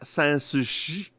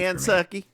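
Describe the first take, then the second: First: The name is said with French-style sounds. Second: The name is said with plain English sounds. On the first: "Do you prefer it whenever I say it like that?" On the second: "when you say it, it's too much for me"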